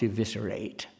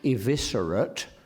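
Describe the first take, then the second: First: The final syllable is full, with an open vowel. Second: The final syllable is reduced, like in inanimate.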